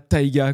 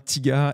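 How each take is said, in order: First: The first vowel sounds like 'eye'. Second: The first vowel sounds like 'ee'. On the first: The speaker calls it wrong. "et pas Taiga comme le rappeur américain" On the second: The speaker calls it right. "ça se prononce bien Tiga"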